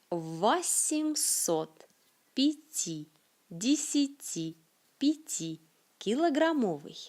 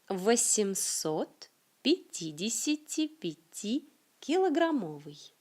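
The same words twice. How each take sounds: First: The phrase is said slowly and carefully. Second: The phrase is said at a moderate speed. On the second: "Un peu plus vite"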